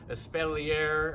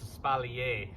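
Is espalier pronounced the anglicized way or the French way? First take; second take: anglicized; French. First: It is pronounced in an anglicized way. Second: It is pronounced in the French way. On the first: The speaker calls it wrong. "or however some of y'all say it out there" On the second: The speaker calls it right. "the way that we pronounce it"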